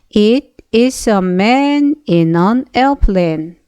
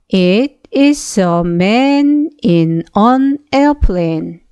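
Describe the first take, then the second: No difference in how they are said.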